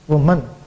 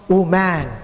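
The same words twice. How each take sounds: First: The second syllable is short and reduced. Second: The second syllable sounds like full 'man'. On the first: The speaker calls it right. "it must be woman" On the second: The speaker calls it wrong. "M A N, of course, it's man, but W O M A N, it's not woman"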